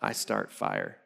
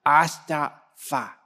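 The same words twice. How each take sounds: First: Put-on very low, soft deadpan toddler quote; toddler confession decoded. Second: Put-on "I thought fa" drawn out slowly, as unclear baby talk; toddler's missing consonants. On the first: Dad translating his two-year-old's words, mock-ominous and low. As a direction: drop far down for a mock-ominous little confession. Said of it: "And he's two". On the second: Toddler repeating himself for dad, "I thought fa" with consonants dropped. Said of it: "You need to pronounce your consonants".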